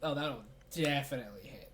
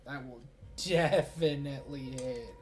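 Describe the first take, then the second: First: Said in the usual way. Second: DEFINITELY stretched out slowly and leaned on; drawn-out emphasis. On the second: Real, not acted. Game master confirms the roll will hit, stretching "definitely" for emphasis. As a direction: draw out "definitely" syllable by syllable.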